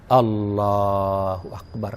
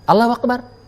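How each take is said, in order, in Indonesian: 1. Diucapkan panjang dan merdu. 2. Diucapkan datar, tanpa irama dan penghayatan. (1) "kan asik" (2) "Memang benar, tapi kan enggak asik dia"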